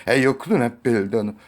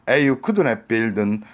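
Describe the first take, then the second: Both takes have the same delivery.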